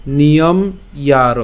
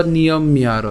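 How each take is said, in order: First: Niyom closed on m, then yaro; niyom-yaro split after m. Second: Niyom miyaro, the m doubled; niyom-miyaro with m carried over. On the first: Teacher gives first option, niyom-yaro split slowly. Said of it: "ম হসন্ত পর্যন্ত উচ্চারণ করলাম". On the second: Teacher gives the alternative, miyaro with linking m. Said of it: "অথবা". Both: Shown as a demonstration.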